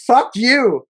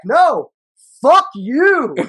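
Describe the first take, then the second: First: Mildly raised, high mock yell; high-pitched quoted yell, only half shouted; retold yell. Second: High, hammed-up retort yell; mock shouting match comeback, topping the first yell; yelling back. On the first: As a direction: act out his angry shout, held back a little. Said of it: "He's yelling". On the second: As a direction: throw the yell back, pitched way up. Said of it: "And I'm yelling back".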